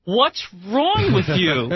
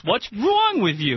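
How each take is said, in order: First: Slow, drawn-out New Jersey "What's wrong with you?"; Jersey accent. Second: Slow New Jersey "What's wrong with you?" repeated; Jersey accent again. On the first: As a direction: lay on a thick Jersey accent, slowly. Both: Pretend. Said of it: "I said that with my Jersey accent very much on purpose".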